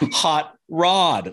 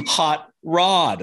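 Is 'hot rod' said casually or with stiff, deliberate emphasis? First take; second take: stiff emphasis; stiff emphasis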